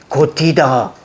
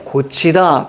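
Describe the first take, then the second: First: "고티다" with a hard aspirated t in 티. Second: "고치다" with a palatal ch in 치; 구개음화된 발음. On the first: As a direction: say "고티다" without palatalising the t. ('고티다'의 티를 구개음화 없이) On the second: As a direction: say "고치다" with ch replacing the old t. ('고치다'의 치를 구개음으로) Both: Shown as a demonstration. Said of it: "구개음화가 됐고요".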